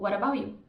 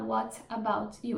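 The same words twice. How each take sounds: First: The T sounds like a quick R sound. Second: Each word is said separately with a clear T. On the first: The speaker calls it right. "trocar por um som de R" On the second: The speaker calls it wrong. "eles não vão falar"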